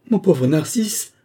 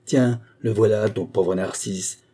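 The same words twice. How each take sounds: First: High, loud, slow wail on Mon pauvre Narcisse, rising; a stunned moan of loss, drawn out. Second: Slow, bitter echo of ton pauvre Narcisse, stress on pauvre; furious mocking cry.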